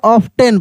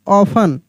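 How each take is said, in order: First: "ऑफ्टन" with the T sounded; common T-sounded pronunciation. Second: "ऑफन" with no T sound; silent T. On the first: Teacher quoting what many people say, "ऑफ्टन" with T sounded. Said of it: "बहुत सारे लोग बोल देते हैं". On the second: Teacher correcting a common habit, "ऑफन" with silent T. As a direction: say "ऑफन" as "of-an", T dropped. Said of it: "ऑफ्टन नहीं". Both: Shown as a demonstration.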